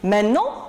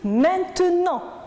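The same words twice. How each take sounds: First: One sound is dropped, shortening the word. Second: Every sound of the word is pronounced. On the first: This is the everyday spoken form. "on a aussi supprimé une lettre et au niveau de la prononciation, ça a changé" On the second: This is the standard form. "au lieu de dire"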